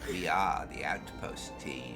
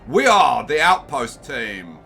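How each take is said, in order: First: It is said in a creepy, sinister voice. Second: It is said in a grand, epic voice. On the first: "I could do it in my creepy voice" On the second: "I'll do it in the epic voice"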